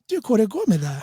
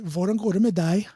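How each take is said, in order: First: It is said in a northern Norwegian dialect. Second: It is said in the speaker's local dialect.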